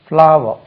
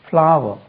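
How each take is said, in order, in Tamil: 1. இந்த சொல் இரண்டு அசைகளுடன் முழுமையாகச் சொல்லப்படுகிறது. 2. இந்த சொல் இரண்டு அசைகளுடன் முழுமையாகச் சொல்லப்படுகிறது.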